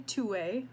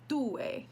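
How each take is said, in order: First: The T is an American-style T. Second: The T is a dental T. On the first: The speaker calls it wrong. "that's the American way to say it" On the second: The speaker calls it right. "you want to have like a dental T"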